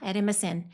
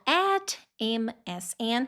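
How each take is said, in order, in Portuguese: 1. A frase é dita bem rápido. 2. A frase é dita bem devagar. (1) "bem rápido" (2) "bem devagarzinho"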